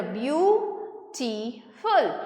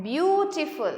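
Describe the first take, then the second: First: beautiful in three slow, separate beats; broken into syllables. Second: Said in the usual way. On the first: Shown as a demonstration. Teacher showing students how to count syllables, beautiful broken in three. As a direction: split beautiful into three parts with pauses between. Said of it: "तीन बार इस word को तोड़ा". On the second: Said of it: "तो पहले मैंने बोला".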